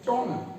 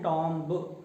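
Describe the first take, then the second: First: No b sound is heard at the end. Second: A b sound is heard at the end. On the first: The speaker calls it right. "तो यहां पर आपको कहना होगा इसको टॉम" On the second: The speaker calls it wrong. "हम इसको wrongly क्या प्रोनाउंस करते हैं"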